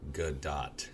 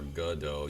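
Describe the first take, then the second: First: The name ends with a clear T sound. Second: The name ends without a T sound. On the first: The speaker calls it right. "you should be saying Gal Gadot" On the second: The speaker calls it wrong. "Instead of saying her name is Gal Gadot or Godot"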